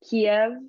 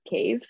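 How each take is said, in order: First: The name is said the Russian way. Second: The name is said the Ukrainian way. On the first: The speaker calls it wrong. "Kiev is the Russian pronunciation" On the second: The speaker calls it right. "The correct pronunciation is cave"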